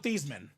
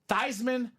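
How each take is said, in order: First: The name is said without rhyming with Heisman. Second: The name is said rhyming with Heisman. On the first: This is the family's original pronunciation. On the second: The pronunciation was changed to help win the trophy.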